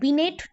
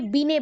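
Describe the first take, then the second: First: The word ends with a clear t sound. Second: The word ends on a vowel, no t. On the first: The speaker calls it wrong. "बिनेट नहीं बोल के" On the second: The speaker calls it right. "बीने बोलना"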